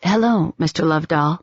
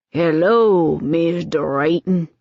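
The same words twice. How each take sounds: First: Said in the usual way. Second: Put-on slow, refined old Southern greeting, R's swallowed; genteel Southern accent, unhurried. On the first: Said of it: "His accent was the old Southern". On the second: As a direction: greet him like a Virginia plantation gentleman. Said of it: "His accent was the old Southern, slow, refined, swallowing his R's".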